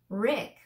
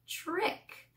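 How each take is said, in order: First: The word starts with a plain, sharp t sound. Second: The word starts with a ch-like sound. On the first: The speaker calls it wrong. "It's not trick. We don't say trick" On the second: The speaker calls it right. "We say ch, trick"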